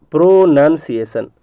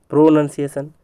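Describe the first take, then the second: First: "प्रोनंसिएशन" slowly as pro, nun, ciation; broken into parts. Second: Said in the usual way. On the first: Shown as a demonstration. Teacher building the spelling from parts, broken into parts. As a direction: stretch and separate the three parts of "प्रोनंसिएशन". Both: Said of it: "बताया कि प्रो है".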